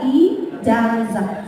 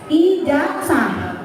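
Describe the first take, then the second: First: The z is said as a real z sound. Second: The z is said like an s sound. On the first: The speaker calls it right. "pelafalan yang benarnya itu adalah" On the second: The speaker calls it wrong. "Z itu jadi S"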